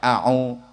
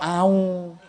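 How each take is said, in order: First: A throat catch separates the two vowels. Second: The vowels glide together without a throat catch. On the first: The speaker calls it right. "Pertama hamzah a, kedua au" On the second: The speaker calls it wrong. "ojo au"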